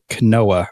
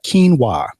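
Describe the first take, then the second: First: It is said letter by letter as spelled. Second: It is said the standard way, not as spelled. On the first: The speaker calls it wrong. "I'd always look at it and I was like quinoa" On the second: The speaker calls it right. "that's how you pronounce it"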